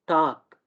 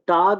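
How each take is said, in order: First: The final consonant is a voiceless k. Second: The final consonant is a voiced g. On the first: The speaker calls it right. "डी को डिवाइस करके के की तरह" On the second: The speaker calls it wrong. "ये टाग नहीं होगा"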